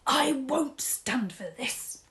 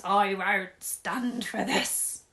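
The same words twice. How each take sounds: First: Whisper. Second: Shouting. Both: Acted. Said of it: "pumps his arms up and down and shouts".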